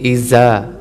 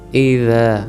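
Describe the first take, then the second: First: The consonant is hard, with the teeth pressed together. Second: The consonant is soft, tongue tip at the teeth. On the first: The speaker calls it wrong. "तो ये गलत होगा, क्योंकि यहाँ पे ज़ाल है और हम वहाँ पे ज़ा पढ़ रहे हैं।" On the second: The speaker calls it right. "ज़ाल को भी यहाँ दोबारा देख लेते हैं।"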